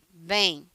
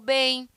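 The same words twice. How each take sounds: First: It is said curtly, in a closed tone. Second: It is said warmly, in a friendly tone. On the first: The person is not really doing well. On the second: The person is doing well.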